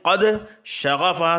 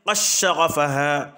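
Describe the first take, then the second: First: The d sound is clearly pronounced before sh. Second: The d merges into a doubled sh sound.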